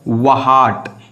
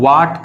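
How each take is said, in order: First: An h sound is pronounced after the w. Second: No h sound is heard after the w. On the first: The speaker calls it wrong. "we do not pronounciate it वहाट" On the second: The speaker calls it right. "इसको हम लोग वाट कहते हैं, और यही सही है"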